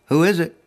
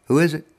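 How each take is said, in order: Both takes have the same delivery.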